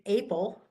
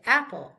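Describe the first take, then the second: First: Apple with a long A, like ape; wrong long A. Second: Apple with a short A, as in at. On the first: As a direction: show the mistake: apple with a long A. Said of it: "we don't say apple". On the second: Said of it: "we say apple". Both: Shown as a demonstration.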